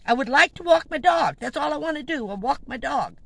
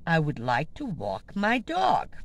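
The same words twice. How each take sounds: First: Higher and louder, fed up; exasperated raised repeat. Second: Said in the usual way. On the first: Retold or imitated. To the woman, repeating louder to be left alone. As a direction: push the line up, insisting.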